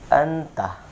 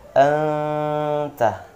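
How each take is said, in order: First: The n is clear, short, and not nasalized. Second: The n is nasalized and held for two beats. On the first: The speaker calls it wrong. "itu jelas nunnya, jelas taknya, kemudian tak didengungkan" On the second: The speaker calls it right. "Yang betul entah ya, ... dengungannya dua harokat"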